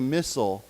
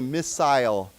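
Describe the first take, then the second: First: The second syllable is reduced and weak. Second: The second syllable has a long 'eye' vowel. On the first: "Americans generally say missile" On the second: "especially I think British people, they say missile"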